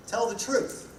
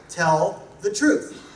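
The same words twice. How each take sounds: First: Said in the usual way. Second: Slow, with Tell weighted and each word deliberate; stress on tell. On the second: Shown as a demonstration. Speaker driving home his first rule to the crowd, stressing Tell slowly. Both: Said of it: "the emphasis is on the tell".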